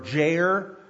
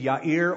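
First: The name is said in an anglicized way. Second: The name is said closer to its original form. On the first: The speaker calls it wrong. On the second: The speaker calls it right.

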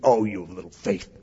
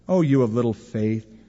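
First: It is said in a harsh, scolding tone. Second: It is said in a gentle, gracious tone.

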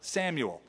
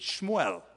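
First: The name is said as three syllables, Sam-u-el. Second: The name is said as two syllables, Shmu-el.

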